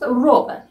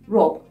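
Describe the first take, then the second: First: The word is said in its full form. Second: The word is shortened, dropping the ending.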